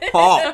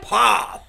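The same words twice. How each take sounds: First: The word is said in a plain voice. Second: The word is said in a punchy put-on voice. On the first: "I'm supposed to say pop" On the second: "Do you want me to say it in a pop voice?"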